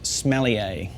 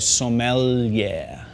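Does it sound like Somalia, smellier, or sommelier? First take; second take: smellier; sommelier. First: It sounds like the word smellier. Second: It is said as sommelier, holding the L. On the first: The speaker calls it wrong. "the second way not to pronounce it" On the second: The speaker calls it right. "you hold the L, so you go sommelier"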